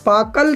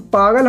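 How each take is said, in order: First: पाकल with a plain क, the wrong reading; पाकल read as if क, the mistaken version. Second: पागल with a voiced ग in the middle; पागल read with ग, the right version; correct reading. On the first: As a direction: say पाकल, hard k sound in the middle. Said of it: "पाकल तो कुछ नहीं होता". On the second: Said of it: "तो हम इसे गे पढ़ लेंगे". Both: Shown as a demonstration.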